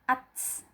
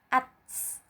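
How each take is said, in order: First: The final consonant ends with a slight hiss. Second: The same.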